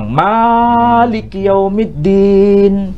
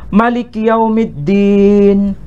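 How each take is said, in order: First: The first vowel of Maliki is long. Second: The first vowel of Maliki is short. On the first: "dibaca panjang" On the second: "Ma-nya dibaca pendek"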